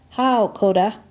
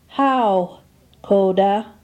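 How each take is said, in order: First: It is said at a normal conversational pace. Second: Each syllable is pronounced slowly and distinctly. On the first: "second for normal pronunciation" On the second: "First for enunciation"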